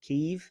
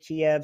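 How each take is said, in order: First: The name is said in its Ukrainian form. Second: The name is said in its Russian form. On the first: The speaker calls it right. "I understand that's the correct way to say it" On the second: The speaker calls it wrong. "the Russians pronounce it Kiev, so let's not do that"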